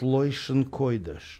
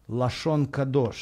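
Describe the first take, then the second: First: The vowels are pronounced as oy sounds. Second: The vowels are pronounced as plain a sounds.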